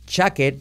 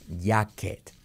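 First: It begins with a voiced 'j' sound. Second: It begins with a 'y'-like sound. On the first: The speaker calls it right. "en lugar de decir jacket" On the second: The speaker calls it wrong. "lo convertimos en una letra como ye"

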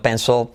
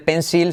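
First: The final L is dark and vowel-like. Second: The final L is clear and light. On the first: The speaker calls it right. "sino pencil" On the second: The speaker calls it wrong. "no se dice pencil"

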